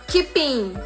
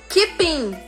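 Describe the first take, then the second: No difference in how they are said.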